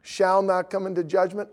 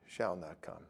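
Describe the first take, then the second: First: "Shall" lifted and pressed, a touch louder; "Shall not come" read out with weight on "Shall"; stress on shall. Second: "Shall not come" said much lower and softer; a hushed, dawning "Shall not come"; softly repeating "Shall not come" as she realises; quiet answer. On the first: Shown as a demonstration. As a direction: lean on "Shall" to point at the certainty. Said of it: "does it say". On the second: Retold or imitated. Her quiet reply, repeating.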